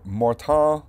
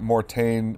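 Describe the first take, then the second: First: The name is pronounced with a French sound. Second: The name is pronounced with an English sound. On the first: "it's French, so I think it's actually pronounced something like Mortain" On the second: "I'll just be saying Mortain"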